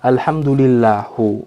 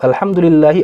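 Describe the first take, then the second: First: The final vowel is a u sound. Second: The final vowel is an i sound. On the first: The speaker calls it wrong. "mengganti harokat kasroh menjadi dhamma" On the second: The speaker calls it right. "alhamdulillahi dibaca alhamdulillahu"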